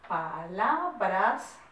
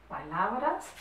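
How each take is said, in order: First: Very slow, drawn-out syllables in "palabras"; syllable-by-syllable dictation. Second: Said in the usual way. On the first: Shown as a demonstration. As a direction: stretch "palabras" out, rising at the end.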